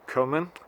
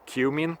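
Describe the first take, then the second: First: The word does not rhyme with human. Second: The word rhymes with human. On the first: The speaker calls it right. "I pronounce it cumin" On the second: The speaker calls it wrong. "then it sounds like human"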